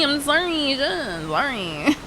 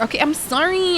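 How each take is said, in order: First: Sorry stretched long and slow; hammed-up slow sorry; slow drawn-out mock apology. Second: Said in the usual way. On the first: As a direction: draw out a slow, exaggerated sorry.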